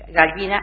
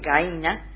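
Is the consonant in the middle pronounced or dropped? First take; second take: pronounced; dropped. First: The middle consonant is clearly pronounced. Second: The middle consonant disappears completely.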